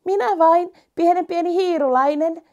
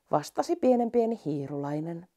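First: High, small and eager little mouse; tiny mouse voice. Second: Said in the usual way. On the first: Acted. (pikkuhiiren korkea ääni)

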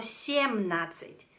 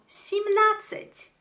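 First: Семнадцать with a full ye in the first syllable; the mistaken семнадцать, е kept as in семь; unreduced e. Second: Семнадцать as simnadtsat, slow and higher; corrected семнадцать, unstressed е reduced to i; e pronounced as i. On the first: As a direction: say семнадцать as syem-nadtsat. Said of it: "No la pronuncio como". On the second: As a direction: lift семнадцать, first vowel a clear i. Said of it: "La pronuncio como i". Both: Shown as a demonstration.

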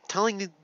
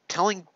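Both takes have the same delivery.

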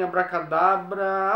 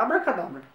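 First: Stretched-out abracadabra, slow and deliberate; slow magic word. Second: Said in the usual way. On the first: Acted. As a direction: draw out each syllable of the spell. Magic word tried twice.

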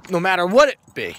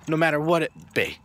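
First: What hit loud and falling in "no matter what it be"; driving the point home, loud and falling on "what"; emphatic, louder. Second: Said in the usual way. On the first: Real, not acted. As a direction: punch "what" with a strong fall. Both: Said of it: "repeated for weight".

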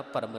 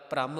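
First: ਭਰਮ with a short vowel before the r; ਭਰਮ with its r separated from the first consonant; mispronunciation without cluster. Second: ਭ੍ਰਮ with r joined straight onto the first consonant; ਭ੍ਰਮ with no vowel before the r; subjoined r. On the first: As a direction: split the opening of ਭਰਮ, "param". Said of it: "ਭਰਮ ਨਹੀਂ ਕਹਿਣਾ ਕਿਸੇ ਨੇ". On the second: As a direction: say ਭ੍ਰਮ as one cluster, "pram". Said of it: "ਪੈਰ ਦੇ ਵਿੱਚ ਰਾਰਾ ਲੱਗਾ ਹੋਇਆ". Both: Shown as a demonstration.

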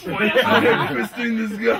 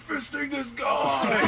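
First: Slow, louder laughing chant; laughing mock yell. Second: High, slow laughing shout; mock metal yell. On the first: Aiming the line at Lucas, loud laughing chant. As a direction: shout it at Lucas while laughing. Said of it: "it'll be Lucas". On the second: Pointing at a friend in the crowd, laughing mock shout. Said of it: "I'm like".

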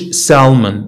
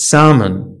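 First: "salmon" as sal-mon, L audible; L sounded. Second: "salmon" as sa-mon, no L; silent L. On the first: Teacher shows learners the mistake, L sounded in "salmon". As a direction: say "salmon" pronouncing the L. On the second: Teacher models the right word, silent L in "salmon". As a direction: say "salmon" with the L dropped. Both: Shown as a demonstration. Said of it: "ما تنقولوش salmon".

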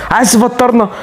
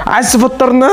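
No difference in how they are said.

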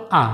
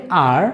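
First: আ as an open vowel with no r; silent R. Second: আর ending in an audible r; sounded R. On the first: Teacher gives the alternative, r dropped. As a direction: stop on the vowel in আ, no r. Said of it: "অথবা আ". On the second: Teacher shows how we say it, r sounded. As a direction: pronounce the final r of আর. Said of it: "আমরা বলি আর". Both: Shown as a demonstration.

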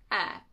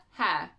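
First: "Air" with no H sound; silent H. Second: "Hair" with the H pronounced; H sounded. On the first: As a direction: say "Air" starting straight on the vowel. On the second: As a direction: say "Hair" starting with an audible H. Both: Shown as a demonstration. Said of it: "wait, air?".

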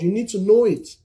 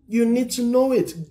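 First: Said in the usual way. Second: Pitched higher, pressing on "know it"; insistent preacher's repeat; emphatic repeat. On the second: Shown as a demonstration. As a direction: drive "You need to know it" home a step higher.

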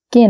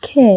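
First: "কে" short, with no puff of air; mispronounced K. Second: "খে" with a puff of air, long vowel; aspirated K. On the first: Teacher showing learners the form to avoid, plain K. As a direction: give an unaspirated, short "কে". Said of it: "কে না". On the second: Teacher giving learners the right pronunciation, aspirated K. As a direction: aspirate the start of "খে" and draw it out. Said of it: "এর উচ্চারণ হচ্ছে". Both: Shown as a demonstration.

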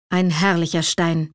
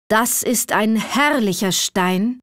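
First: Lower, dark and heavy ein herrlicher Stein; gloomy repeat. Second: A lightly voiced stranger, slow, savouring herrlicher; admiring old man. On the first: Assad echoing the old man's praise, gloomy and lower. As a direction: echo the praise gloomily, clutching it jealously. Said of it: "wiederholte Assad düster". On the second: Old man admiring the ruby behind Assad, slow and savouring. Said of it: "erscholl es auf einmal hinter ihm". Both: A narrator's reading.

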